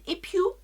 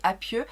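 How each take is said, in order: First: The name starts with 'e' and ends 'oo'. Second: The name starts with 'a' and ends 'eu'. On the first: This is apparently the correct pronunciation. The speaker calls it right. "apparemment ça se dit Epiou" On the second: This is how she had always said it. The speaker calls it wrong. "j'ai toujours dit Apieux"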